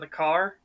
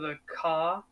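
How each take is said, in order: First: The R is clearly pronounced. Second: The R is dropped, British style.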